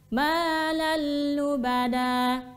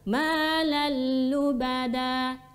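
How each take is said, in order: First: The n sound merges into a doubled l. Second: The n sound merges into a doubled l.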